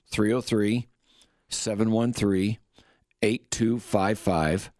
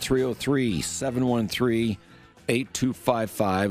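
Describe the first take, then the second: First: It is said at a slower pace. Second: It is said at a faster pace.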